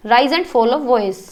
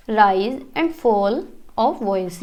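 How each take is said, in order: First: Said in the usual way. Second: "rise and fall of voice" very slow, pitch swinging up and down; rise and fall intonation. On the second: Shown as a demonstration. Teacher showing students intonation, drawn-out rise and fall. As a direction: stretch "rise", "fall" and "voice", gliding the pitch on each, softer. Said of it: "आवाज़ का ऊपर नीचे होना".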